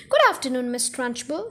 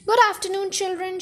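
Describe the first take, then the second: First: Put-on lightly chirped children's chorus; chirped greeting. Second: Higher-pitched, mildly barked greeting. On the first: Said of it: "they chirped". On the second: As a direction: bark it at the class, understated. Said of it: "she barked". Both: A narrator's reading.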